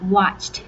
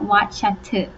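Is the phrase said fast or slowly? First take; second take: fast; slowly. First: The phrase is said quickly, with the words run together. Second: The phrase is said slowly, with each word clear. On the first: "แต่ว่าพูดเร็วๆก็" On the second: "practice ไว้นะคะพูดช้าๆก็"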